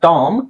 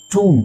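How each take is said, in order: First: ಟಾಮ್ with a long open "aa"; open aa vowel. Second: ಟೂಮ್ with a long "oo"; oo, silent b. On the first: Teacher reads t-o-m, open aa vowel. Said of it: "ಬರೀ T ಓ M ಇದ್ರೆ ನೀವು ಟಾಮ್ ಅಂತ ಓದ್ಬೇಕು". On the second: Teacher reads t-o-m-b, oo with silent b. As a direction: stretch the oo in ಟೂಮ್ and end on m. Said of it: "ಬಿ pronounce ಮಾಡಬಾರ್ದು". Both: Shown as a demonstration.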